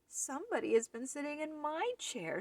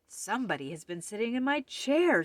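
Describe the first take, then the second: First: It is said in a wee little voice. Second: It is said in a great big voice.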